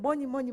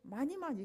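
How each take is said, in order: First: The first vowel sounds like 'uh'. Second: The first vowel sounds like 'ah'. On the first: This is how the speaker's own group says it. "우리는 머니 머니 뭐 이렇게 했는데" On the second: This is how the local children say it. "이게 뭔 소린가 했어요"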